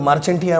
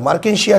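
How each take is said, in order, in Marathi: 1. याचा उच्चार ch आणि t ने होतो. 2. याचा उच्चार k आणि sh ने होतो. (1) "मार्चेंटिया म्हणणार नका" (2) "मार्केन्शिया त्याचं नाव"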